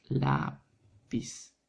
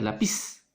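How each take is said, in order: First: Lápiz drawn out slowly as LÁÁ, then piz; correct stress on LÁ. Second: Lápiz mis-stressed as la-PIZ; wrong stress on PIZ. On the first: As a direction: stretch the first syllable of lápiz, then drop piz. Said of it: "sino es". (lápiz lento, con la fuerza en LÁ) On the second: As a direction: say lápiz with the beat on the last syllable, piz. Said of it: "No va a ser". (lápiz mal acentuado, con golpe en PIZ) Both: Shown as a demonstration.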